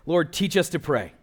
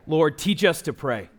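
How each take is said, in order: Both takes have the same delivery.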